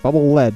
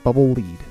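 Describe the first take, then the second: First: Lead is said like the metal, rhyming with bed. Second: Lead is said like the verb, rhyming with seed. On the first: The weapon fires the metal lead. The speaker calls it right. "In the Worlds of Power book, it's lead" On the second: The weapon leads or guides the bubble. The speaker calls it wrong. "not bubble lead"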